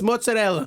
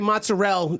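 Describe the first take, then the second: First: It is fully voiced, with an Italian pronunciation. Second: It is clipped, with an American 'mozz' sound. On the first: The speaker calls it right. "my mother likes to say the Italian words properly" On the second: The speaker calls it wrong. "Where's the A and why is it mozz?"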